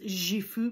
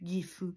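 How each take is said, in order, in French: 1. Il se prononce à la française. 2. Il se prononce à la japonaise. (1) "beaucoup de francophones... disent Gifu" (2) "plutôt que Gifu"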